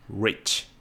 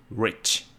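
First: It starts with a rounded, pulled-back English R. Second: It starts with a rounded, pulled-back English R.

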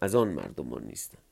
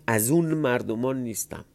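First: The word before 'mardoman' is said 'an'. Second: The word before 'mardoman' is said 'un'. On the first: This is the more formal reading. "حالا من میگم" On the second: This is how it was said in casual speech. "معلومه تو محاوره اینجوری میگفتن"

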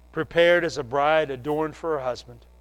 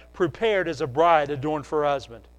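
Both takes have the same delivery.

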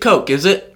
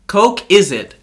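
First: It is said as a rising question. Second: It is said as a falling exclamation.

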